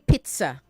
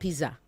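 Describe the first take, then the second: First: The middle consonant is a 'ts' sound. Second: The middle consonant is a plain 'z' sound. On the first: The speaker calls it right. "Say pizza" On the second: The speaker calls it wrong. "not pizza"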